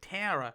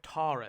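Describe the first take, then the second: First: The name is said in an American accent. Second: The name is said in a non-American accent. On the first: "but the Americans say Tara" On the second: "Tara is how you say it"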